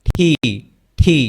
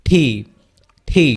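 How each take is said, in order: The two takes are said the same way.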